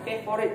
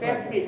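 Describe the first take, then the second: First: The word is said with three syllables. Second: The word is said with two syllables. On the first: The speaker calls it wrong. "Jangan favorite jadi tiga" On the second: The speaker calls it right. "Favorite hanya dua silabelnya"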